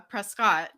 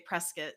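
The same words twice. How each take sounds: First: The name is pronounced just as it is spelled. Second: The name is pronounced in the local, non-spelled way. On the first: "It's spelled uh" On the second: "a lot of people say Prescott"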